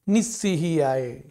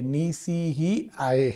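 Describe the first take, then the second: First: The s is doubled and pressed hard. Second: The s is single and said lightly. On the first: The speaker calls it wrong. "भार देकर वजन देकर जोर से शुद्ध बोलने की इच्छा से भी अशुद्ध बोलते हैं" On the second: The speaker calls it right. "वहां डबल स नहीं है"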